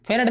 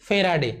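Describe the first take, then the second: First: फेरड shortened, ending on a bare d; students' mispronunciation. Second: फेराडे with long middle aa and voiced final e; correct pronunciation. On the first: Teacher rejecting the wrong name, फेरड said short as fe-rad. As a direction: say फेरड as fe-rad, dropping the last vowel. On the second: Teacher giving students the right name, फेराडे as fe-raa-de. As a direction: give फेराडे all three syllables, fe-raa-de. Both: Shown as a demonstration. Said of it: "फेरड नहीं फेराडे".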